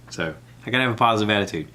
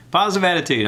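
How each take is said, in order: First: Said in the usual way. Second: Higher, louder cheer of the phrase; pumped-up self pep talk. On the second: Shown as a demonstration. Psyching himself up about Bert, a loud cheerful chant. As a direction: hype yourself up.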